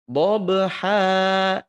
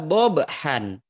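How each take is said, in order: First: The word ends with a long 'a' vowel. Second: The word ends with 'an', an n sound. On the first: "dua harokat" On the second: "Awalnya adalah dobhan"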